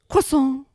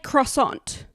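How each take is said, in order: First: The word is said with French sounds. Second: The word is said with English sounds. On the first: "We don't say croissant" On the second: "we just say croissant"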